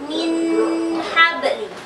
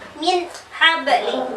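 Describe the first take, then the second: First: The n is nasalized and held long. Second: The n is cut off with a break. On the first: "Jangan didengungkan, tidak boleh lama" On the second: "diputus min habli, salah"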